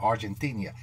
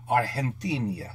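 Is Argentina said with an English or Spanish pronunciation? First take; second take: English; Spanish. First: The name is said with an English pronunciation. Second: The name is said with a Spanish pronunciation. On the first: The speaker calls it wrong. "It's not Argentina" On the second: The speaker calls it right. "Did I say that right in Spanish?"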